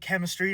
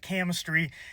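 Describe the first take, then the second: First: It is said in a plain standard accent. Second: It is said in a Southern American accent. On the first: The speaker calls it right. "I meant to say chemistry" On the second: The speaker calls it wrong. "I don't know why I sounded southern there"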